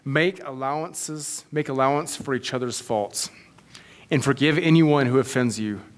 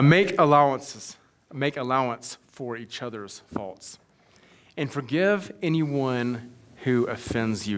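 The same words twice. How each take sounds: First: It is read at a normal pace. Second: It is read very slowly.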